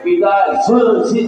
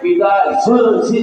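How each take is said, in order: First: The z releases an audible puff of air. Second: The z releases an audible puff of air.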